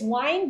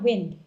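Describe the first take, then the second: First: It is pronounced as the verb form. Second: It is pronounced as the noun form. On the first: It means to wrap something around. The speaker calls it right. "the word here is wind ... wind as in the verb" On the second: It means moving air. The speaker calls it wrong. "not wind"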